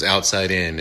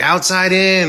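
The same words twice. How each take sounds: First: Said in the usual way. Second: High, loud mock proclamation; called-out message. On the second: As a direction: imitate calling out a cryptic clue. Tangina's cryptic message acted out.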